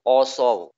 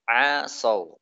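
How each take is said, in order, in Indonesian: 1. Vokal pertama tebal, seperti o. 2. Vokal pertama tipis, seperti a.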